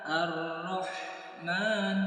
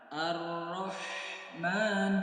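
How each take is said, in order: Both takes have the same delivery.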